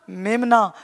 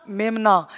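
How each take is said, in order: Both takes have the same delivery.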